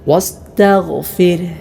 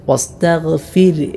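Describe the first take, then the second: The two takes are said the same way.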